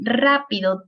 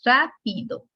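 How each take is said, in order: First: Said in the usual way. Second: "rápido" split, RÁ set apart from pido; teacher dividing "rápido" after the stressed RÁ; syllable-by-syllable demonstration. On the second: Shown as a demonstration. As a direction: sound out "rápido" in pieces for counting. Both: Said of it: "tiene tres sílabas".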